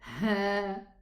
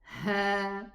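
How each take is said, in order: Both takes have the same delivery.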